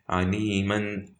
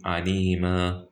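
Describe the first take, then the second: First: "aliman" stretched, ending on a sounded n; wrong stop. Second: "alima" stretched, ending on open aa without n; correct stop. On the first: Teacher showing what you can't say, wrong stop. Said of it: "you can't say aliman like this". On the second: Teacher showing what you have to say, correct stop. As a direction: drop the n, end "alima" on a long a. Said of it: "You have to say alima". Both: Shown as a demonstration.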